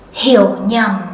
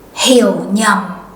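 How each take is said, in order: First: It uses the northern Vietnamese pronunciation. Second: The same.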